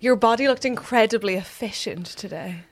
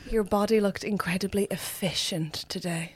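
First: It is said loudly. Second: It is said at normal, softer volume.

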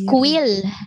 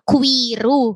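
First: It is said as English one-syllable quill. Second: It is said as Japanese three-syllable ku-i-ru. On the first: "Pero it is Quill" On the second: "when you pronounce it in Japanese, parang Kuiru"

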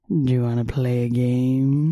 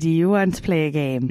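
First: It is said in a creepy Saw-like voice. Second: It is said in a normal voice.

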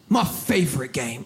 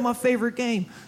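First: It is said in a dark, ominous way. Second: It is said in a plain, casual way.

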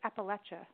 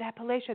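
First: The middle sounds like 'apple'. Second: The middle does not sound like 'apple'. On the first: The speaker calls it right. "it's about throw an apple at you. So it's Appalachia" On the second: The speaker calls it wrong. "is it Appalachia? They're like, no"

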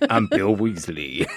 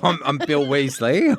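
First: It is spoken in a Texan accent. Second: It is spoken in an Australian accent. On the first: "Bill Weasley's from Texas" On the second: "he's Australian"

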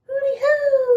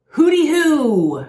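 First: It is yelled in a very high-pitched voice. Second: It is yelled in a normal voice.

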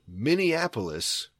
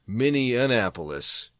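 First: It does not sound like mini plus Annapolis. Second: It sounds like mini plus Annapolis. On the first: The speaker calls it right. "I learned that the city is Minneapolis" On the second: The speaker calls it wrong. "as I've been saying for 31 years. ... took the capital of Maryland and added a mini to the front of it"

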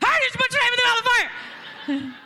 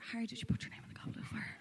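First: It is said loudly, almost shouted. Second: It is said in a soft whisper.

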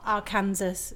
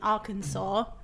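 First: The word sounds like 'Kansas' with 'ar' before it. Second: The word ends with a 'saw' sound. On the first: The speaker calls it wrong. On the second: The speaker calls it right.

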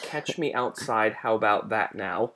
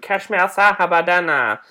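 First: The last words are said clearly as separate words. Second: The last words are slurred together into one word. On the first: "I'm gonna say it that way" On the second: "which I don't even think I'm saying correctly"

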